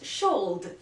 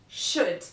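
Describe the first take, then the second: First: The L sound is pronounced in the word. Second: The L sound is left silent in the word. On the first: The speaker calls it wrong. "not should" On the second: The speaker calls it right. "This letter is usually silent after the vowels"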